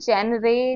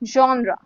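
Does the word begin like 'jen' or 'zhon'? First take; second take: jen; zhon. First: It begins with a 'jen' sound. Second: It begins with a 'zhon' sound. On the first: The speaker calls it wrong. "ऐसे कुछ नहीं बोलते" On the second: The speaker calls it right. "इसको हम बोलेंगे जॉनरा"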